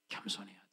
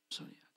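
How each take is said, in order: First: Much softer, lower urging; almost a hush, pleading for humility; gentle quiet exhortation; quiet plea. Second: Softest barely-voiced repeat; hushed final plea; quieter plea. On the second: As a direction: let it fade to near silence. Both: Real, not acted. Sermon plea to be humble.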